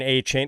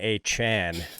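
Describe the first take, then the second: First: The last syllable has a long 'ay' vowel. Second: The last syllable has a short 'a' vowel. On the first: This is how the name was commonly said before. "rather than A. Chain. A. Chain is such a cool name" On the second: This is how the player wants his name said. "he wants to be called Devon A. Chan"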